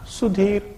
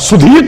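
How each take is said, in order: First: The name is said flatly with low energy. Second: The name is said warmly with high energy. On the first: The speaker shows no interest or enthusiasm. The speaker calls it wrong. "Excitement ही नहीं है।" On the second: The speaker shows pride and enthusiasm. The speaker calls it right. "अरे बाप ने इतने प्यार से रखा था"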